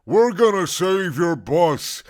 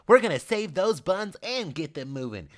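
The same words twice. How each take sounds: First: Loud, slow, gleeful squeal; happy squeal. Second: Upbeat high man voicing; bright cheerleader energy; cheerful man's voice. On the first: Acted. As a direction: squeal it with glee. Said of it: "she squealed happily". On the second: Richard repeats, cheering on.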